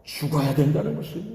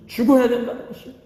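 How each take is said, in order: First: Said in the usual way. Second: 죽어야 said higher and faster, punched; stress on 죽어야. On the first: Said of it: "repeated for emphasis". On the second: Shown as a demonstration. Preacher to congregation, repeating 죽어야 with a sharp raised punch. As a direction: hit 죽어야 hard and quick the second time. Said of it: "repeated higher, faster".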